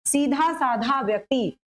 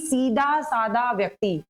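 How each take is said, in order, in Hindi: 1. 'dh' ध्वनि साँस के साथ महाप्राण होती है। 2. 'dh' एक सादा, अल्पप्राण 'd' है।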